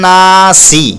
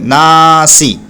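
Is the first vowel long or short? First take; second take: long; long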